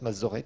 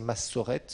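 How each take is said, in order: First: The middle consonant is a buzzing z sound. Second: The middle consonant is a hissing s sound. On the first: "je crois que ça se prononce Masorette" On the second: "on pourrait prononcer Massorette"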